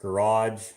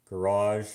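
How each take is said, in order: First: "Garage" as "guh-RODGE", ending in a j; hard-ending pronunciation. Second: "Garage" as "guh-RAHZH", ending in a soft zh; soft-ending pronunciation. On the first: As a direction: end "Garage" on a dge sound. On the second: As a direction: end "Garage" on a soft French zh. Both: Shown as a demonstration. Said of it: "those are interchangeable here".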